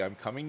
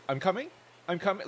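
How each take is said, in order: First: Said in the usual way. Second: Higher and louder, I'm coming with a rising question tune; gamer talk. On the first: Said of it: "nobody says, like, "I am coming". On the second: Pretend. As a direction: call it out like a gamer on comms. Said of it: "it is like gamer talk".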